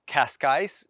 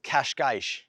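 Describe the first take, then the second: First: The word ends with an s sound. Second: The word ends with an sh sound. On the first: "in English, Cascais is perfectly normal" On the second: "you've got to get that j, that sh sound"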